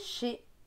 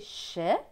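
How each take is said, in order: First: The vowel is closed, like é. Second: The vowel is open, like è. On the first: This is the speaker's regional way. "Selon ma région, ce sera E" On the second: This follows the reading method's rule. "E T se prononce E selon la méthode Bocher"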